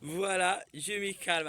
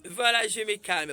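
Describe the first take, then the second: First: Said in the usual way. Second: Louder and higher, protesting calm; loud mock self-calming; calming down, said loudly. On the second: Shown as a demonstration. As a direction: announce your calm with heat. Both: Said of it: "le pasteur Barouti qui dit calme".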